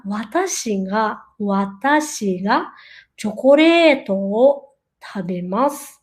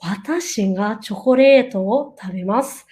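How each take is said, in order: First: "ga" in "Watashi ga" said as a nasal "nga", slowly and lower; slow lower model with a nasal "ga" after "Watashi"; nasal ga demo. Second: "Watashi ga chocolate o tabemasu" said at normal pace, "ga" still a nasal "nga"; normal-speed sentence. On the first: Teacher shows the nasal Japanese ga to students, slow demo. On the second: Teacher says the full Japanese sentence at normal speed. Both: Shown as a demonstration. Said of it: "O ga, ele é mais nasal".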